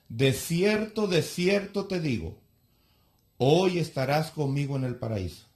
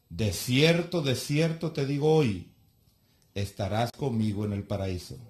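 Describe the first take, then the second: First: The pause comes before the word hoy. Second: The pause comes after the word hoy.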